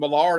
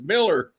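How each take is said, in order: First: The second syllable sounds like 'lar'. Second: The second syllable sounds like 'ler'. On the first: This is how most people say the name. The speaker calls it wrong. "everybody calls him Millar" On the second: This is how the man says his own name. The speaker calls it right. "he goes, "It's Miller.""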